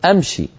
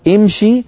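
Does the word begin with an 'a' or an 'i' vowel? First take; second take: a; i. First: The first vowel is an open 'a'. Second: The first vowel is an 'i'. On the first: This is colloquial Hijazi speech. The speaker calls it wrong. "في العامية يقولون أمشي أدخل، هذه لا تصح" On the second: This is classical Arabic. The speaker calls it right. "وامشي نكسر الهمزة"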